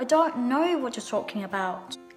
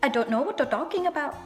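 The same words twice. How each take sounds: First: It is said in a British accent. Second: It is said in an Indian accent.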